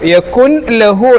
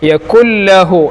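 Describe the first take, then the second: First: The n sound is heard before the l. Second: The n sound merges fully into the l. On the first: The speaker calls it wrong. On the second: The speaker calls it right.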